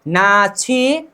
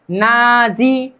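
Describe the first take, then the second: First: नाछी said very slowly with an aspirated chh; नाछी drawn out slowly, chh clearly aspirated; correct pronunciation. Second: नाजी with a plain j instead of the aspirated chh; wrong pronunciation. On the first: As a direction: stretch out नाछी, breathy chh in the middle. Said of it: "ऐसा नहीं करना है". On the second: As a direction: demonstrate the mistake नाजी with a j sound. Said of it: "अब ऐसा नहीं करना है कि". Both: Shown as a demonstration.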